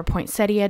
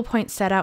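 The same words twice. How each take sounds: First: "poinsettia" ending in "-ee-uh"; "poinsettia" with an "ee" before the final "a"; four-syllable pronunciation. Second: "poinsettia" ending in plain "-setta"; "poinsettia" without the "ee" before the final "a"; three-syllable pronunciation. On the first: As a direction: say "poinsettia" as poin-SET-ee-uh. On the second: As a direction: say "poinsettia" as poin-SET-uh. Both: Shown as a demonstration. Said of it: "depending on how you wanna pronounce it".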